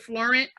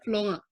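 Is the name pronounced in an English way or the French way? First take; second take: English; French. First: The name is pronounced with English-style sounds. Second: The name is pronounced with French-style sounds. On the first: This is how the speaker chooses to say her name. "I pronounce it Florent" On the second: This is how her father's family would prefer it. "Pronounce my last name the French way"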